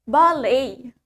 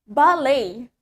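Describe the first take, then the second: Both takes have the same delivery.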